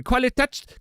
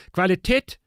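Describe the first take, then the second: First: "Qualität" with an open final "a"; uncertain German pronunciation. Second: "Qualität" with a closed "eh" at the end; umlaut on the A. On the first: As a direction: end "Qualität" on "tat", ignoring the umlaut. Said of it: "so I forget how to say things". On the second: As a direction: end "Qualität" on "tet", as German ä. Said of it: "there's an umlaut over the A". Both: Shown as a demonstration.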